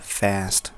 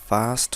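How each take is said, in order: First: It is said in an American accent. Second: It is said in a British accent. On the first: "अमेरिकनमा" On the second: "ब्रिटिसमा भन्नु भए"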